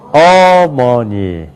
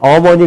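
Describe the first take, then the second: First: One syllable is strongly stressed over the others. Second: All syllables are said with even weight. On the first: "강세가 있기 때문에" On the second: "우리는 어머니 그럴 수 있지만"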